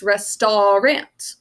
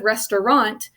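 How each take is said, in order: First: Slow "restaurant" as res-tar-ant; drawn-out "restaurant", every syllable fully voiced; spelling pronunciation. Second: "restaurant" as res-ter-ont; everyday "restaurant" ending in ont; usual pronunciation. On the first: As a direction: say "restaurant" slowly with ah, then short a. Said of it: "it's restaurant". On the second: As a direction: say "restaurant" casually with a weak middle "ter". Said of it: "Instead of restaurant". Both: Shown as a demonstration.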